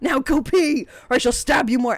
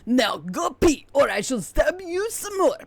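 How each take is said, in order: First: It is read in the speaker's plain voice. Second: It is read in a put-on French accent.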